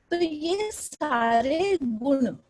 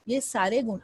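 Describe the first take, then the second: First: Slow, drawn-out "ये सारे गुण" with falling tune; expressive demo. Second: Said in the usual way. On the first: Shown as a demonstration. Teacher shows class expressive phrasing, slow and drawn. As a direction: stretch "ये सारे गुण" slowly for effect. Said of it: "demonstrates expressive rise and fall". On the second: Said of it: "repeat after expressive take".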